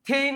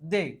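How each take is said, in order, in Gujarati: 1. તે અઘોષ, શ્વાસવાળા 'th' અવાજથી શરૂ થાય છે. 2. તે ઘોષ 'dh' અવાજથી શરૂ થાય છે. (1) "ટીએચ નો ઉચ્ચાર થેય નથી થતો"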